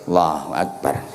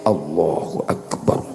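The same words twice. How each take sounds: First: It is said limply, with energy trailing away. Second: It is said eagerly and with full energy. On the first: The person only comes out of social obligation. The speaker calls it wrong. "sing rapati nurut ... kaya layangan pedhot ngono" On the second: The person sincerely wants to pray. The speaker calls it right. "Nek sing nurute tenanan"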